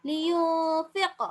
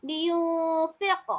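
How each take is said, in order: The two takes are said the same way.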